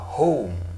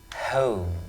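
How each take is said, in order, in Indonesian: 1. Vokalnya terdengar Amerika. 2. Vokalnya terdengar British. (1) "kalau menurut American itu cenderungnya ke O" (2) "British ya pronunciation seringkali dibaca O"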